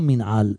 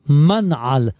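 First: The first syllable has a non-'a' vowel after m. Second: The first syllable has an 'a' vowel after m. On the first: The speaker calls it wrong. "לא מנעל" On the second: The speaker calls it right. "שצריכים לומר, מנעל ... מנעל מם בפתח"

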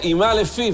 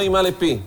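First: The last word starts with an f sound. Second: The last word starts with a p sound. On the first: The speaker calls it right. "המילה הבאה תהיה לא דגושה" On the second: The speaker calls it wrong. "ולא"

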